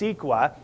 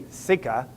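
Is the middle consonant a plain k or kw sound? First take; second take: kw; plain k. First: The middle sounds like kw, with a w. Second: The middle sounds like a plain k. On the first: This is the usual pronunciation. "but it's not. It's CEQA" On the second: This is how the speaker thinks it should be said. "It should be CEQA"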